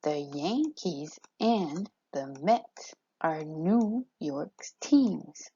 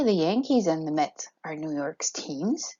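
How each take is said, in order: First: "The Yankees and the Mets are New York's teams" slowly, beat by beat; slow it right down, stressing every second syllable from "Yan" to "teams"; measured "The Yankees and the Mets", each strong beat leaned on; iambic stress demo. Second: Said in the usual way. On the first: Shown as a demonstration. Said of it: "spoken line of iambic pentameter". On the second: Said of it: "with natural inflection".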